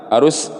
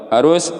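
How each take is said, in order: No difference in how they are said.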